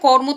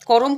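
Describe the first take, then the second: First: The r and m sounds run together directly. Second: An extra vowel separates the r and m.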